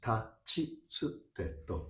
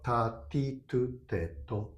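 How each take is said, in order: First: The middle syllables start with ch and ts sounds. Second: Every syllable starts with a plain t sound. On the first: The speaker calls it right. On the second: The speaker calls it wrong. "It's not"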